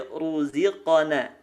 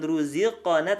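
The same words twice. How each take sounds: First: Slow RUZIQANA with heavy RU; thick RA. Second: RUZIQANA with a thin, lip-made RU; wrong thin RU. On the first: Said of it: "itu ra-nya dibaca tebal". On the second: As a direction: let RU lose its heaviness in RUZIQANA. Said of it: "bukan ruziqana". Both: Shown as a demonstration.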